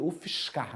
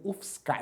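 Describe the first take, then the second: First: It is said in the speaker's local accent. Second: It is said in a Paulista accent.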